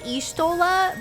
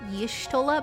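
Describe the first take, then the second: First: The name starts with a plain vowel sound. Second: The name starts with a y sound. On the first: The speaker calls it wrong. "I usually say Ishtola" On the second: The speaker calls it right. "like y Yishtola"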